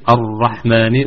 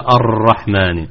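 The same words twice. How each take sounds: First: The r has a light, brief trill. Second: The r has a long, heavy trill. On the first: The speaker calls it right. "نقول الرحمن" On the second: The speaker calls it wrong. "وليس الرحمن"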